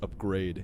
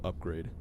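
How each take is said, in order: First: The stress is on the second syllable. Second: The stress is on the first syllable. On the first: This is how the character said it. "She put emphasis on grade and not up" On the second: This is how most people say it. "placing the emphasis on up, like most people do"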